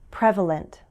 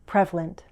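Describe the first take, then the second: First: The word is said with its full syllables. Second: The word is said with one syllable dropped.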